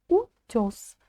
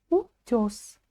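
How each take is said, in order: The two takes are said the same way.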